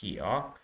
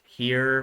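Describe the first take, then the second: First: It is said with an Australian vowel. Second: It is said with an American vowel. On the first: "Forgive me for my Australian accent" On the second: "I know it's pronounced here"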